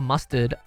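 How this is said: It is said in an Australian accent. "Or mustard in Australian"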